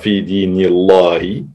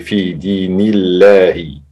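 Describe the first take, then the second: First: The L sound is heavy and thick. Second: The L sound is light and thin. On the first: The speaker calls it wrong. "on ne dit pas" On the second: The speaker calls it right. "le lem est muraqaq"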